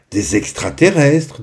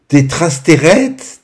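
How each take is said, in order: First: Lightly voiced boy, slightly higher, well pronounced; Ario's reaction. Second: "trasterrettes" garbled slowly, higher and louder; small child's mispronunciation. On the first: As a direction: say "extraterrestres" correctly as a hint of an older child. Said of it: "dit Ario". (léger ton d'enfant, « extraterrestres » bien prononcé) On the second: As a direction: garble it as "trasterrettes" like a little kid. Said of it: "dit Azura". (« trasterrettes » écorché d'une voix aiguë de petite fille) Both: A narrator's reading.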